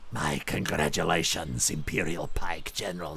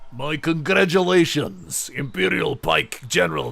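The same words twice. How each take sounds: First: It is read in a hissing, snake-like voice. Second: It is read in a plain, normal voice.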